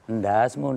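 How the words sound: It is said in a light, joking tone. It is meant as friendly banter. The speaker calls it right. "Candaan itu begini loh"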